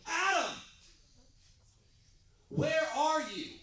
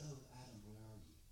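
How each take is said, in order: First: It is said in an urgent, intense way. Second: It is said in a soft, gentle way.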